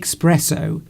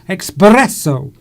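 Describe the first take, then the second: First: The r is plain, not rolled. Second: The r is rolled strongly and loudly. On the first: "we say espresso in the U K" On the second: "I can't roll my espresso. Oh, I can do it"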